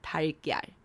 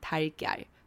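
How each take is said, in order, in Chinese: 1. 这两部分说得快，而且连在一起说。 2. 这两部分说得快，而且连在一起说。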